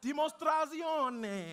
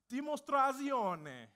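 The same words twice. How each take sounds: First: "Dimostrazione" shouted slowly, much higher and louder; shouted Italian. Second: "Dimostrazione" slow, higher and loud, Italian vowels; Italian pronunciation. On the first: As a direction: belt out "Dimostrazione" with the crowd. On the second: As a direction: spell out "Dimostrazione" syllable by syllable in Italian. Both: Shown as a demonstration. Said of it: "So I'm gonna teach you a little Italian".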